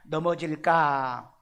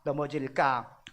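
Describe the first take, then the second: First: 넘어질까 stretched slowly, syllable by syllable; slow drawn-out word. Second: Said in the usual way. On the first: Shown as a demonstration. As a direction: draw out 넘어질까 slowly for the class. (넘어질까를 천천히 늘여서) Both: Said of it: "여기 우리 원어를 한번 봅시다".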